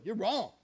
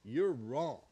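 First: "You're wrong" said louder and higher, "wrong" hit hard; a bold, mock-daring "You're WRONG"; punched verdict. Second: "you're wrong" dropped much lower, "you're" leaned on; low closing repeat. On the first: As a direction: land "wrong" firmly like a verdict. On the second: Acted. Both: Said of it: "That's all there is to it".

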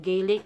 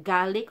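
First: First vowel of "Gaelic" as in day. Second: "Gaelic" said GAL-ik; first vowel of "Gaelic" as in cat; Gaelic as Gallic. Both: Shown as a demonstration. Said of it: "or they call it Gaelic".

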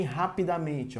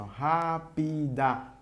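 First: Said in the usual way. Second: "rapidamente" slowly as ra, pi, da, men, te; split into syllables. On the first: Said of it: "Se eu separar". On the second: Shown as a demonstration. Teacher showing pupils the strong syllable, "rapidamente" split up. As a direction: stretch and separate each syllable of "rapidamente". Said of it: "Se eu separar, vai ficar assim".

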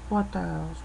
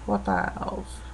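First: Said in the usual way. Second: The same words whispered to herself. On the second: Real, not acted. Woman muttering to herself, softly whispered. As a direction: breathe the question under your breath. Thinking aloud, then repeats it.

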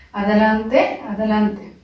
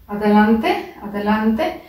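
Both takes have the same delivery.

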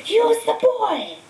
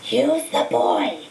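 First: Slow, much higher and louder echoing command; the hidden master repeats the order more urgently; Voldemort's eerie voice. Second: Slow, drawn-out otherworldly command; a disembodied master commanding his servant; Voldemort's eerie voice. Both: A narrator's reading. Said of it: "voice seemed to come from Quirrell".

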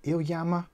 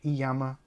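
First: "Iyama" tried as ill-YAH-ma; unsure pronunciation. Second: "Iyama" tried as ee-YAH-ma, without the l; second try. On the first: Unsure of the brand name, trying "Iyama" as ill-YAH-ma. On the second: Still unsure of the brand name, trying "Iyama" as ee-YAH-ma. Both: Shown as a demonstration. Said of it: "How do you pronounce it?".

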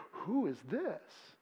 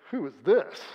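First: Slow, breathless, barely voiced wonder; hushed awed whisper. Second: Puzzled rising question. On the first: Preacher showing the crowd's hushed amazement. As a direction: breathe it out slowly in awe. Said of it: "You could say". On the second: Preacher showing the crowd's skeptical question. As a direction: ask it with a doubting lift on this. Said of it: "Or you could say". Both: Shown as a demonstration.

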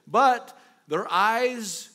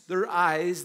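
First: But their eyes, slow, loud and drawn out; dramatic slow emphasis on But their eyes. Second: Said in the usual way. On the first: Real, not acted. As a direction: lean hard into But their eyes, dragging each word. Preacher emphasizing blinded eyes.

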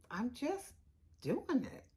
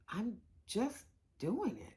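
The two takes are said the same way.

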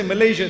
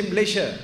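First: Said in the usual way. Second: Malaysia squeezed to two syllables, "M'lay-sha"; local Malaysian pronunciation. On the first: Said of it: "here they don't say Malaysia". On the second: Shown as a demonstration. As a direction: swallow the first vowel of Malaysia, soft "sh" near the end. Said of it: "here they don't say Malaysia, they say".

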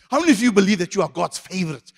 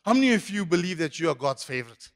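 First: Quicker, more forceful question; emphatic re-asking. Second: Said in the usual way. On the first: Real, not acted. Preacher asking after only some responded, emphatic and urging. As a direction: push the congregation to respond.

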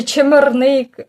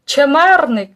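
First: "чемерник" stressed on НИК; stress on last syllable. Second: "Чемерник" stressed on МЕР; stress on second syllable. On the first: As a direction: push the final syllable of "чемерник". («чемерник» з наголосом на НИК) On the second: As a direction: lean on the middle syllable of "Чемерник". («Чемерник» з наголосом на МЕР) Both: Shown as a demonstration. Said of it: "як правильно, е, наголос".

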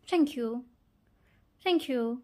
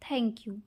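First: Clipped British thank you, mouth nearly shut. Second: Full clear Indian thank you. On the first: Mimicking how Brits say thank you, clipped and quick. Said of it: "ওরা বলে". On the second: Showing how Indians say thank you, fully spoken. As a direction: say thank you plainly, every sound open. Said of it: "আমরা ইন্ডিয়ানরা বলি". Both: Shown as a demonstration.

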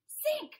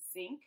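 First: "Sink" yelled much higher and louder; mock wail. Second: Said in the usual way. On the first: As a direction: howl "Sink" in hammed-up despair. Fish sinks further.

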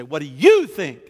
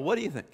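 First: "you" punched much louder; pointed demand. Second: Quick offhand toss, higher pitch, no punch; casual. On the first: Wanting a point blank answer, pointed stress on "you". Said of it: "other times we wanna know specific". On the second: Not serious about wanting an answer, casual. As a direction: throw the question out casually. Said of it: "we just kinda casually throw out". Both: Shown as a demonstration.

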